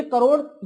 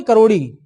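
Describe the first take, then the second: First: करोड़ said cut short on the ड़; wrong take Karod. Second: करोड़ी with a clear long i at the end; fixing the slip, करोड़ी ending on ee; corrected Karodi. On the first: Teacher misnames the official, करोड़ without the final i. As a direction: slip of the tongue, करोड़ with no final vowel. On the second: Teacher corrects himself for students, करोड़ी with a long final i. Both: Shown as a demonstration. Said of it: "sorry, करोड़ नहीं".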